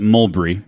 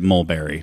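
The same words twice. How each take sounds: First: The word has a British pronunciation. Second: The word has an American pronunciation.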